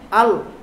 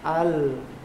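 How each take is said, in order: First: The final consonant is held back too tightly. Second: The final consonant is soft and moderately released. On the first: The speaker calls it wrong. "tidak terlalu tertahan ... dibaca al, an, itu salah" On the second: The speaker calls it right. "Pertengahan, jadi dia lembut"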